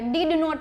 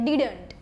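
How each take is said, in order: First: It is said as two full words. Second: It is said as one short contracted word.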